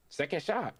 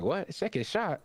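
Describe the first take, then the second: First: Retold call of the move, raised pitch, falling end; announced attack. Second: High, questioning retold reaction with a rising end; incredulous echo. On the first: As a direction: state it as a declaration, pitched up. Acted quote, character announces attack. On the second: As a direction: echo it back in mock disbelief, pitched well up. Acted quote, opponent questions the announcement.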